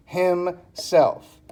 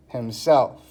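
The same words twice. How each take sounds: First: "Himself" slowly split as him, self; syllable by syllable. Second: Said in the usual way. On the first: Shown as a demonstration. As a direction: break "Himself" into two separate beats. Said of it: "tells you how many syllables". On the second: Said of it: "It's one word".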